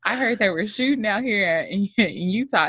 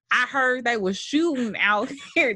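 First: Said in the usual way. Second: Attempted Oakland accent, coming out country. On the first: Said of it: "Let me not disrespect Oakland men". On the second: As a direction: imitate an Oakland man with a country twang. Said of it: "That's a very country accent".

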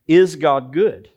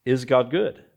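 First: Slow, loud, stress on is; is God good? with is pressed hard and slow; emphatic question. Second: Said in the usual way. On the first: Shown as a demonstration. Pastor poses the big question to the congregation, slow and loud. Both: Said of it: "to ask and answer this question".

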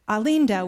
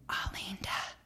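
First: Said in the usual way. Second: A hushed breathy Alinda; whispered. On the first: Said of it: "and he whispered". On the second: Retold or imitated. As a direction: whisper Alinda as a polite secret. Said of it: "and he whispered, like my mom did".

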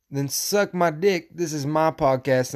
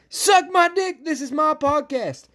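First: Said in the usual way. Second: High, shouted, angry defiance; defiant yell. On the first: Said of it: "Because like I said". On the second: Real, not acted. Podcaster defending his right to rant, defiant shouting. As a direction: yell it far above your talking pitch. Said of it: "Sorry about yelling".

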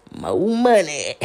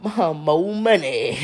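First: Slow, lightly voiced catchphrase imitation; hint of a comedian's bit; Marlon catchphrase. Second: Slow, laughing through the catchphrase. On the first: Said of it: "screw up his little face and swing his little hands". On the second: Real, not acted. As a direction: chuckle while fumbling for it. Laughing while recalling the catchphrase.

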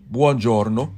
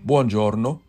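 Both takes have the same delivery.

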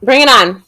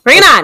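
First: Said in the usual way. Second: Pumped, a bit louder; louder psyched-up repeat. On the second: Real, not acted.

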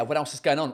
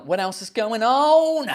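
First: Said in the usual way. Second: Slow, climbing, louder question; drawn-out mock-dramatic repeat; hammed-up question. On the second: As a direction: stretch the last word, swooping high.

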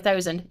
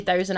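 First: THOUSAND said quickly in one go; fast pronunciation. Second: THOUSAND carefully drawn out, every sound separate; over-enunciate "thousand" slowly; spelled-out pronunciation. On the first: Server naming the dressing in a hurry, "thousand" said fast. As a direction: run through "thousand" without spelling it out. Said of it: "if I'm just saying it fast". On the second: Server struggling to say the dressing name, "thousand" laboriously enunciated. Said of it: "I really have to spell it out". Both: Shown as a demonstration.

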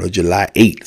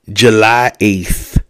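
First: "eighth" said like eight, no th at the end; eighth without th. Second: "eighth" said with a clear th ending. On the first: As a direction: say "July eighth" dropping the th. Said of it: "as I like to say". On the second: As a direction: say "July eighth" with the th sound, slowly. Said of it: "I don't like that eighth". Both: Shown as a demonstration.

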